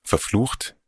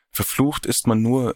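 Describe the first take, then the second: First: "Verflucht?" echoed back with a disbelieving rising tune; echo question. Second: Said in the usual way. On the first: Acted. Narrator echoes Odette's word in disbelief, rising "Verflucht?". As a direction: throw "Verflucht?" back as a doubting question, pitch rising at the end. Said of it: "Weil ich verflucht bin".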